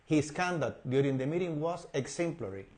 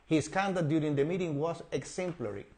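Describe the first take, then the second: Both takes have the same delivery.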